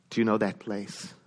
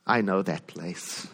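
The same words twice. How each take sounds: First: "you" given the weight, low and quiet; stress on you. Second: "I" slow and drawn out, low and quiet; stress on I. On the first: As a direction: put the stress on "you" as a question to the room. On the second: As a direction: lean hard on "I", unhurried. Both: Shown as a demonstration.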